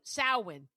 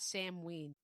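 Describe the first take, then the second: First: The first syllable sounds like 'sow'. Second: The first syllable sounds like 'sam'. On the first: "The other pronunciation is Sowin" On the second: "not Samhain"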